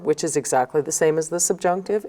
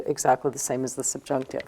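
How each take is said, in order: First: Said in the usual way. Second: Softer, quicker echo of the line; quiet fast repeat. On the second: Shown as a demonstration. Teacher quickly repeats the rule to students, softer and quicker. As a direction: drop your voice and repeat it fast to yourself.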